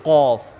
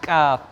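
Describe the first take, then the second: First: The vowel is a rounded au sound. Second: The vowel is a plain open a sound. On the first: The speaker calls it wrong. "आप बोल रहे कौफ" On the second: The speaker calls it right. "मैं बोल रहा हूँ काफ"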